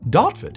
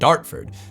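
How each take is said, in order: First: The R after the first vowel is dropped. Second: The R after the first vowel is clearly pronounced. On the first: "it's not pronounced. The name of the place is Dartford" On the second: "in the American accent, pronounce it Dartford"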